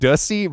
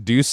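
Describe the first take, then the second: First: The name is said to rhyme with pussy. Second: The name is said without rhyming with pussy. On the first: The speaker calls it wrong. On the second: The speaker calls it right.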